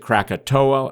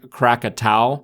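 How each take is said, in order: First: The name ends with an 'oh-ah' sound. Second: The name ends with an 'ow' sound.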